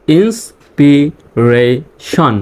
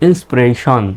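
First: inspiration very slow, in four separate parts; syllable by syllable. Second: Said in the usual way. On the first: Shown as a demonstration. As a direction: split inspiration into ins, pi, re, shon with pauses. Teacher breaks word into syllables. (Inspiration ভেঙে ভেঙে, খুব ধীরে)

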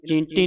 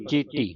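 First: ਚੀਂਟੀ with an n sound before ਟ; nasalised misreading. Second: ਚੀਟੀ with a pure oral ee; no nasal. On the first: (ਚੀਂਟੀ ਬਿੰਦੀ ਨਾਲ) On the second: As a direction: say ਚੀਟੀ with no n before ਟ. (ਚੀਟੀ ਬਿੰਦੀ ਤੋਂ ਬਿਨਾਂ) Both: Shown as a demonstration. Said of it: "ਇਹਨੂੰ ਚੀਂਟੀ ਨਹੀਂ ਪੜਨਾ".

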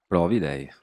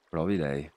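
First: Louder, punchy comeback; a cheeky loud "provi lei"; loud retort. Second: Said in the usual way. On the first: Real, not acted. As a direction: fire it back at chat.

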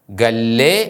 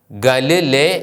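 First: ഗല്ലേ as one word with doubled l; correct reading. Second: ഗല് ലേ split in two; wrong reading. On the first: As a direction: hold the ll in ഗല്ലേ. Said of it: "എന്നാണ് ഉച്ചരിക്കേണ്ടത്". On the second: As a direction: break ഗല് and ലേ apart. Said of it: "എന്നല്ല ഉച്ചരിക്കേണ്ടത്". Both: Shown as a demonstration.

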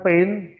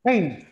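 First: "pain" without a final T; wrong word "pain". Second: "Paint" with a final T; correct "paint". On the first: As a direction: end "pain" openly on N. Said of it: "Bukan pain". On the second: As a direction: close "Paint" on a short T. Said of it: "Nah, di belakang". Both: Shown as a demonstration.

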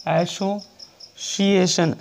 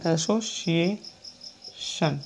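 First: Very slow, each syllable stretched; teacher dictating the word slowly; drawn-out dictation. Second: Very slow and quieter, syllables drawn out; teacher repeating the word softly. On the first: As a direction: spell it out slowly for the class. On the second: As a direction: repeat it gently and slowly. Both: Shown as a demonstration. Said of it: "इसको सुना".

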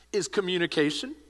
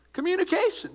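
First: Said in the usual way. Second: "Communication" said higher and louder as a punchline; emphatic answer. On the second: Acted. Pastor answering his own question to the congregation, "Communication" ringing out.

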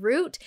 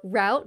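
First: "route" said like "root"; root pronunciation. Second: "route" said like "rout"; rout pronunciation. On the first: Host explaining her podcast name, "route" pronounced as root. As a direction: say "route" with an oo vowel, rhyming with boot. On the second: Host offering the other regional form, "route" pronounced as rout. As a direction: say "route" with an ow vowel, rhyming with out. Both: Shown as a demonstration. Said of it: "depending on where you live".

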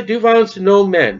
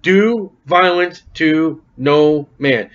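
First: "man" stressed and said as singular, the whole line raised. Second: Slow, even reading with every word laid out; slow scripture reading. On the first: Preacher stresses "man" to show it's not men. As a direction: hit the word "man" so it's clearly singular. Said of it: "it does not say men". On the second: Preacher reads the verse out slowly. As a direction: read the verse slowly to the congregation. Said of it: "Notice what's it say". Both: Shown as a demonstration.

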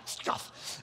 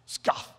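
First: Whispered second try at a scoff. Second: A short scornful scoff, said as the word Scoff; voiced mock Scoff at normal volume; scoff imitation. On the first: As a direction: Scoff breathed out unvoiced and much softer. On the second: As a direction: sneer out a quick Scoff. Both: Shown as a demonstration. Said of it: "That's my imitation of a scoff".

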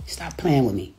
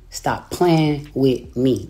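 First: Said in the usual way. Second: Slow, drawn-out warning. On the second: Shown as a demonstration. Scolding her online rival, slowly drawn out. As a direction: stretch each word out slowly.

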